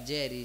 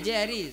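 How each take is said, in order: First: It is said in a loving, affectionate tone. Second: It is said harshly, like throwing a stone.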